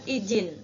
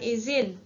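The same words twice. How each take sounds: First: The middle consonant is a j sound. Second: The middle consonant is a z sound. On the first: The speaker calls it wrong. "tidak memakai huruf J" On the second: The speaker calls it right. "memakai huruf Z"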